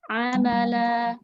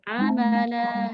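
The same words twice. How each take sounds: First: The final vowel is lengthened and flows smoothly. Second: The final vowel is lengthened and flows smoothly.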